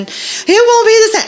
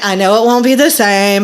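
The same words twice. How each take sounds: First: High-pitched mock whine; bawling child. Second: Said in the usual way. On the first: Mom imitating child refusing a replacement toy, tearful whine. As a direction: protest like a heartbroken kid.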